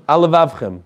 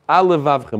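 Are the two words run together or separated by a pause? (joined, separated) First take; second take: joined; joined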